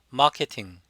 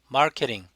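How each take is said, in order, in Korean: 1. R 발음은 없고, T는 분명하게 발음합니다. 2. R 발음을 하고, T는 탄설음으로 발음합니다. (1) "영국식은 R 발음을 하지 않고 T 발음을 그대로 T로 합니다" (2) "미국식은 마케팅"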